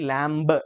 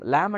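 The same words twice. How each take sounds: First: The word is said with a b sound. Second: The word is said without a b sound. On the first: The speaker calls it wrong. "లాంబ్ అనము" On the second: The speaker calls it right. "లాంబ్ అంటాం"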